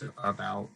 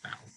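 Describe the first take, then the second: First: The unstressed first syllable is pronounced. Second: The unstressed first syllable is left out.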